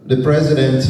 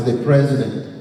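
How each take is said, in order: Both takes have the same delivery.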